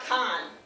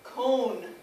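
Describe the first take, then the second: First: The vowel sounds like the English word con. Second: The vowel sounds like the English word cone. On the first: The speaker calls it wrong. "It's not con" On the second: The speaker calls it right. "I'm pronouncing it like cone, like an ice cream cone"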